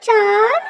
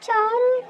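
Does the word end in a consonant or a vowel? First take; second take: consonant; vowel. First: The word ends cleanly on a consonant. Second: The word ends with an added vowel sound. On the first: The speaker calls it right. "చార్ చార్" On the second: The speaker calls it wrong. "చారు కాదు"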